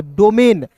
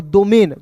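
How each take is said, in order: First: डोमेन starting with a hard retroflex ड. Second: Tongue on the teeth to begin डोमेन; dental d. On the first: Teacher contrasting two readings for learners, retroflex-d डोमेन. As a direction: curl the tongue back to begin डोमेन. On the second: Teacher contrasting two readings for learners, dental-d डोमेन. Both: Shown as a demonstration. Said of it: "डी का द और डी का ड".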